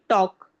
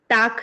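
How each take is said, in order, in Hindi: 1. गोल 'aw' स्वर के साथ बोला गया है और L नहीं है। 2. सपाट 'aa' स्वर के साथ बोला गया है और L नहीं है। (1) "हम कहेंगे टॉक" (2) "टाल्क या टाक नहीं कहेंगे"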